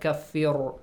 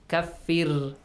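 First: The r sound is heavy and full. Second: The r sound is light and thin. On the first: The speaker calls it wrong. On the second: The speaker calls it right. "Make sure the ra here is pronounced with a light sound"

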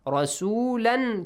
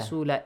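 First: The word ends with an n sound. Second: The word ends with a long vowel. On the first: The reading continues without stopping. "رسولا changes to" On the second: The reader stops on this word. "In case you stop here"

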